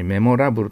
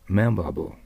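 First: Every syllable has a full Japanese vowel. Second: The 'ra' syllable has a weak, reduced vowel. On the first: The speaker calls it wrong. "日本語のようにメモラブルと呼んだらダメです" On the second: The speaker calls it right. "ラはほとんど曖昧な発音だから、おーっとしか聞こえませんよ"

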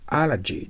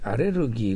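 First: It is said with English sounds, a-la-jee. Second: It is said with Japanese sounds, a-re-ru-gi. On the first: The speaker calls it right. "アラジーと読まないといけません" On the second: The speaker calls it wrong. "アレルギーがあると呼んじゃダメです"

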